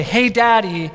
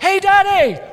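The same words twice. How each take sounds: First: Said in the usual way. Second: High-pitched mock little-boy call; excited young son. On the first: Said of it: "he would just say". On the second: Son calling to dad before leaping at him, excited. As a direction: call out like a boy about to leap. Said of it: "He's like".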